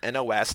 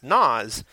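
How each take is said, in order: First: Each letter is said separately. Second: It is said as one single word. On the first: The speaker calls it right. "It's pronounced by reading each letter" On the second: The speaker calls it wrong. "isn't actually pronounced Nas"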